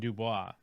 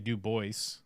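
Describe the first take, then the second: First: The name is given a French pronunciation. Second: The name is given an Americanized pronunciation. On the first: The speaker calls it right. "even though it's a French word" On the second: The speaker calls it wrong. "they'll say Du Bois"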